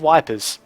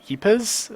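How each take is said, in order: First: The name begins with a W sound. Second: The name begins with a Y sound. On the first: This is the Australian way of saying it. "the Australian way of saying" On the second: This is how it is actually pronounced. "It's actually pronounced uh, Yipers or something like that"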